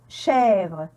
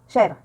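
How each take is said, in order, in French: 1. La voyelle est ouverte et prolongée. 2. La voyelle est brève et non prolongée. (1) "et il est prolongé" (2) "Je ne dis pas chèvre"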